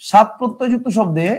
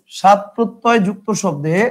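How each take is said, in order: First: Said in the usual way. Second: Spelling it out slowly for note-taking; slow and deliberate, word by word; slow dictation. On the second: Shown as a demonstration. Teacher dictating slowly so students can write it down. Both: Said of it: "কি শব্দ ভাই?".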